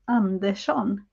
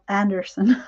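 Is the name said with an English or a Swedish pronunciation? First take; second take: Swedish; English. First: The name is said with a Swedish pronunciation. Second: The name is said with an English pronunciation. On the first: "with the pronunciation of, of a Swede like me, it would be Andersson" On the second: "instead of Anderson"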